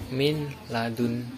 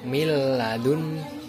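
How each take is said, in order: First: The n is pronounced separately before the l. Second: The n merges into the l without nasal hum. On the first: The speaker calls it wrong. "bukan min ladun, bukan, itu salah" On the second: The speaker calls it right. "cara membaca yang benar yaitu miladun ... tanpa mendengung"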